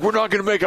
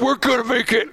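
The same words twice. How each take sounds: First: High-pitched worried cry, played for laughs; hammed-up doomed warning; mock panic. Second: Very high, hammed-up cry of triumph; comic high-pitched rallying cry; mock daredevil cheer. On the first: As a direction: fret aloud in comic alarm, pitched up. Quoting co-host in panicked ramp jump. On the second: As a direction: squeal it with over-the-top confidence. Acted daredevil reply in ramp scene.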